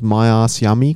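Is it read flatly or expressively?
flatly. It is read flatly, like a robot.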